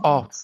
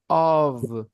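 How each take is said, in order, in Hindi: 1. यह शब्द F ध्वनि से समाप्त होता है। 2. यह शब्द V ध्वनि से समाप्त होता है। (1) "It is not off" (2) "But O F is pronounced of"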